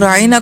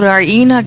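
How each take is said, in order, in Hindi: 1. शब्द सीधा और एक जैसी लय में बोला गया है। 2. शब्द खींचकर और थोड़ा मरोड़कर बोला गया है।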